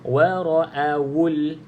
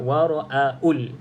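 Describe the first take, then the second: First: A clear rounded w sound is pronounced. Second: The w sound is replaced by a glottal catch. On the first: The speaker calls it right. "Jelaskan waw berbaris di hadapan" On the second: The speaker calls it wrong. "ada pelajar kita yang baca uh, wara'aul"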